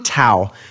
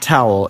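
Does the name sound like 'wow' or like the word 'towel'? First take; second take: like wow; like towel. First: The name is said to rhyme with wow. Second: The name is said like the ordinary word towel. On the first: The speaker calls it right. "It rhymes with wow" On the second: The speaker calls it wrong. "not towel"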